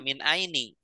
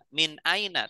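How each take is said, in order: First: The word ends with a different final vowel. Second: The word ends with an 'a' vowel. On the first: The speaker calls it wrong. "tidak min aini" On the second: The speaker calls it right. "tetap dibaca fathah akhirnya"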